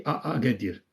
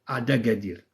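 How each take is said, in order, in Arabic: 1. يلتقي الصائتان دون صوت د. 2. يربط صوت د بين الصائتين. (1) "ماشي ا ا قادير" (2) "ولات ادا قادير"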